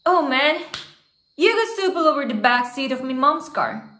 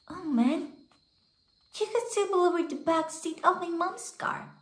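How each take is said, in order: First: It is read in a plain, natural voice. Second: It is voiced as a five-year-old girl.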